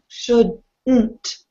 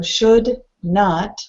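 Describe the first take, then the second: First: It is one word ending in reduced 'nt'. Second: It is two words with a full 'not'. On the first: "nt, shouldn't" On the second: "two words, we hear not, not"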